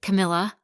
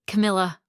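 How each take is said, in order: First: Camilla called out louder with a rising, questioning tune; calling her name again. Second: Camilla called out louder with a falling tune; calling her name. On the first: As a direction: ask Camilla? with the pitch lifting at the end. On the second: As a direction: call Camilla firmly, pitch dropping at the end. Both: Acted. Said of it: "Marcus called again".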